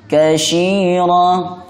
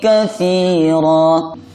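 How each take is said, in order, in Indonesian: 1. Huruf tengahnya bunyi sh. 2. Huruf tengahnya bunyi th. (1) "atau dibaca shin" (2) "Hati-hati huruf ta-nya"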